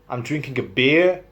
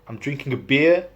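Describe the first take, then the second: First: It is said in a standard British accent. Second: It is said in a West Country accent.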